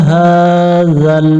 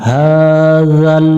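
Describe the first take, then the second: No difference in how they are said.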